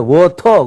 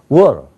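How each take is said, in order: First: Both syllables get equal force. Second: The first syllable is strong, the second weak. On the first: The speaker calls it wrong. "영어 발음한 게 아니에요" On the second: The speaker calls it right. "스트레스가 워에 있거든요"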